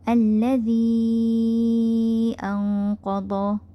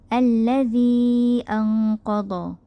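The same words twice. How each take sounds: First: The vowel before the hamza is held longer. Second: The vowel before the hamza is held briefly. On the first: "tawassut al-munfasil, empat harakat" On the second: "dua harakat"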